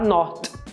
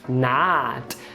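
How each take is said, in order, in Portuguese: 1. A vogal é um som 'oh' arredondado. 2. A vogal é um som 'ah' aberto. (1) "a gente que está vendo pela escrita quer falar not" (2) "No inglês americano é A"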